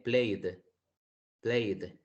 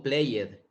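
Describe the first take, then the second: First: "played" correctly as one syllable. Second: "played" said wrongly as play-ed with an extra vowel; "played" mispronounced as play-ed; wrong two-syllable played. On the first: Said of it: "sino que con una D". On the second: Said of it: "No digo played". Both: Shown as a demonstration.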